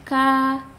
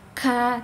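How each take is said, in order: First: The k has a light, relaxed burst of breath. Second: The k has a heavy, exaggerated burst of breath. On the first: The speaker calls it right. "tapi ka" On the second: The speaker calls it wrong. "tidak perlu berlebihan hamesnya, tidak perlu ka"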